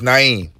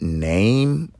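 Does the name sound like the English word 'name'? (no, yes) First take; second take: no; yes. First: It sounds different from the English word name. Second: It sounds just like the English word name. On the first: The speaker calls it right. "No, it's Naim" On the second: The speaker calls it wrong. "So if you call me Name, first of all, who's going to name their child Name?"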